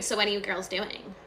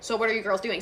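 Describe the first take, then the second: First: Imitated copycat. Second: Said in the usual way. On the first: Daughter supposedly copying mom's question, light mimicking echo. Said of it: "copying everything she said". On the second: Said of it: "So if she was like".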